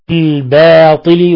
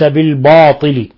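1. الباء والألف مرققان وخفيفان. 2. الباء والألف مفخمان وممتلئان. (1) "فهنا بالباطل" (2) "وليس بالباطل"

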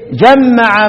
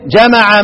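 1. الحرف الأوسط مشدد ويُمدّ أطول. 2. الحرف الأوسط مفرد وقصير. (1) "وجمع بالتشديد" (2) "ضد التشديد"

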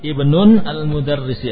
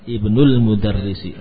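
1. Kata pertama diakhiri dengan bunyi n. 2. Kata pertama langsung tersambung ke kata berikutnya, tanpa n. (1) "ini ada tanwin" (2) "Dibuang tanwinnya"

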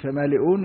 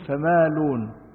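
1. في الكلمة همزة قبل الجزء الأخير. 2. ليس في الكلمة همزة قبل الجزء الأخير. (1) "في فمالئون" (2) "يقول فمالون"

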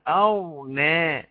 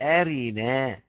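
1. الراء ما عليهاش حركة. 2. الراء عليها حركة كاملة. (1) "أحسب الهمزة تبقى أرنا" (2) "يا إما الحركة الهمزة للساكن والراء بقت أرينا"

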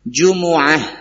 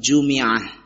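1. Huruf m diikuti vokal u. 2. Huruf m diikuti vokal i. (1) "Ada yang membacanya dengan jumu'ah" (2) "bisa juga dibaca dengan kasrah"

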